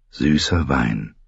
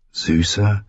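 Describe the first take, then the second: First: Slow, lower, lingering on süßer; slow savoring. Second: Said in the usual way. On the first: A narrator's reading. Narrator savors the sweet wine, slowly and lower. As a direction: draw out süßer as if tasting it.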